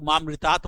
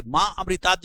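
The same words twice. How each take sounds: First: "मां मृतात्" with no अ after मां; dropped A sound. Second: "मां अमृतात्" with the अ sounded after मां; separate A sound. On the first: Teacher showing a common mistake, "मां मृतात्" with the अ missing. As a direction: run मां straight into मृतात्, leaving out the अ. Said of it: "कुछ लोग मां मृतात् बोल देते हैं". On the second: Teacher modelling the mantra's ending, "मां अमृतात्" with an audible अ. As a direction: say "मां अमृतात्" as two words, letting the अ be heard. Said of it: "थोड़ा सा अ का उच्चारण आना चाहिए". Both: Shown as a demonstration.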